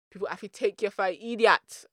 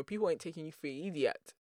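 First: Put-on louder, higher Jamaican accent. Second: Said in the usual way. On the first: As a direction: put on an emphatic Jamaican lilt. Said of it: "I'm gonna do a Jamaican accent". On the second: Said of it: "Jamaican accent".

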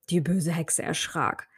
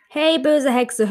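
First: Said in the usual way. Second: High, slow angry call; angry shout. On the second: Acted. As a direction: stretch out böse in a scolding cry. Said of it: "guckte böse und rief".

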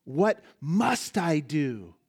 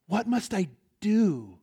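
First: Slow, leaning hard on MUST; stress on MUST. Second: Slow, with a pause before DO; stress on DO. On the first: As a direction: punch "must" and let "I do" fall away. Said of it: "To put the emphasis on another word". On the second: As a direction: hold back, then land on a long "do". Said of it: "put the emphasis on another word". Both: Shown as a demonstration.

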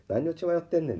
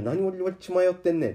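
First: A touch higher self-rebuke; scolding himself. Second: Higher, louder self-rebuke; scolding himself. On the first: Tempted again by the buyer's offer, he mildly scolds himself. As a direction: shake off the temptation. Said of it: "って思うね". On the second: Tempted by a high price, he scolds himself aloud. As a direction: snap at yourself to wake up. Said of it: "って思いながらも". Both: Retold or imitated.

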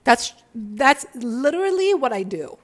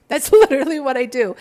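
First: Said in the usual way. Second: Laughs through it, louder and quick; amused, owning it with a laugh. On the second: Shown as a demonstration. Laughing to her viewers about her own work. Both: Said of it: "I'm aware and I don't care".

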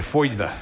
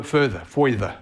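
First: Further with a New York r and a laugh; New York accent. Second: Further, further said slowly with a clear r; careful correction. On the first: Real, not acted. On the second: Shown as a demonstration. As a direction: repeat further, further with the r spelled out. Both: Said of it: "It's my New York accent right there".

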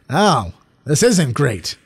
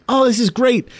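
First: Slow, deflated mock verdict; flat letdown. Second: High, bright mock delight; excited gush. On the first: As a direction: drag it out, disappointed on rewatch. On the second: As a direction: gush like a thrilled first-time viewer. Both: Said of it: "being like".

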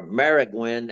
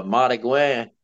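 First: Marigüen said as MARE-ih-gwin; flat "mare" start and "gwin" ending on marigüen; up-north pronunciation. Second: Marigüen with open "mah" and "gwah" ending; down-the-bayou pronunciation. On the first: Showing how people up north say it, town pronunciation. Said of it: "as people say it up north". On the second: Naming the mosquito for listeners, bayou pronunciation. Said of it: "it comes out Marigüen". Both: Shown as a demonstration.

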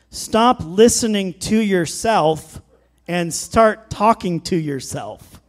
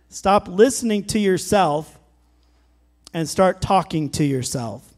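First: Slow emphatic. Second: Said in the usual way. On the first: Shown as a demonstration.

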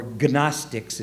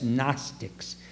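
First: Gnostics with the G sounded, guh-NOS-tiks; mispronounced silent G. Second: Said in the usual way. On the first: Shown as a demonstration. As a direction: say the hard G at the start of Gnostics. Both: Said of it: "if you don't know how to pronounce it".

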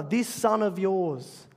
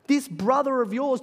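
First: "This son of yours" slow, with a falling push on "This"; the older son coldly saying "This son of yours" to disown his brother; stress on this son. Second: "this brother of yours" raised and louder, rising warmly on "this"; the father insisting "this brother of yours" with rising emphasis; stress on this brother. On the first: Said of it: "He said to his father". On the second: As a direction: lift "this brother of yours" as the father's loving claim. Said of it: "what the older son called his brother". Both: Retold or imitated.

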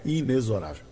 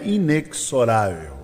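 First: Inexorável with the x as a soft z, inezoRÁvel, dropped quiet; inexorável pronounced with z; correct x as z. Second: Inexorável with a hard ks sound, ineksoRÁvel; inexorável pronounced with ks; wrong x as ks. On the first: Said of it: "não é inexorável". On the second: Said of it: "é inexorável". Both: Shown as a demonstration.

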